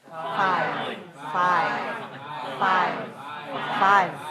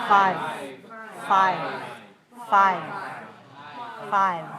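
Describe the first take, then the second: The two takes are said the same way.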